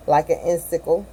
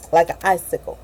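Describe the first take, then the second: First: Icicle said as IN-sickle, nasal first syllable; "icicle" stumbled as in-sick-ul; misread icicle. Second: Icicle said as EYE-sick-ul; "icicle" with a clear long EYE opening; corrected icicle. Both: Real, not acted.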